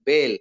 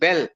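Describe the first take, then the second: First: The vowel is not said as a short vowel. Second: The vowel is said as a short vowel. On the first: "a Marathi student will say bell" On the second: "A Kannada student can say bell"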